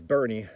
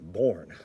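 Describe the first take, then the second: First: It is said with two syllables, like 'Bernie'. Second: It is said with one syllable, like 'born'. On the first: The speaker calls it right. "is Bernie" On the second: The speaker calls it wrong. "not born"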